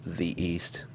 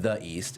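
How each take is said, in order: First: The word "the" is said as "thee". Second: The word "the" is said as "thuh". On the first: The speaker calls it right. "Whenever a word starts with a vowel sound, the correct preceding version of the is the" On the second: The speaker calls it wrong. "it's not the East"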